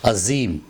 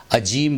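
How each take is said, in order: First: "عظیم" as azeem, buzzing z; careful azeem for "عظیم"; correct z sound. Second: "عجیم" with j, as ajeem; mispronounced j for z. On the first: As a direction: say "عظیم" with a clear z, not j. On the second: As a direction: say "عجیم" with j in the middle. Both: Shown as a demonstration. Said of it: "عجیم نہیں".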